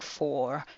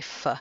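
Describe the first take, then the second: First: The word has a full, clear vowel. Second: The word has a weak, reduced vowel. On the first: "Instead of saying for" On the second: "you'd say f"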